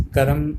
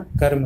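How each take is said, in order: First: कर्म split as ka-ram; wrong pronunciation. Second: Said in the usual way. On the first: Shown as a demonstration. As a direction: put a vowel between र and म in कर्म. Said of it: "का उच्चारण नहीं करना". (कर्म को क-रम बोलें) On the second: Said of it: "कहना है".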